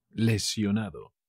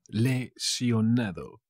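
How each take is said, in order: First: Said in the usual way. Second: "Lesionado" stretched out in parts; slow, syllable by syllable. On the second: Shown as a demonstration. Teacher repeats the Spanish for injured, slowly broken up. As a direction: say "Lesionado" slowly, le, sio, nado.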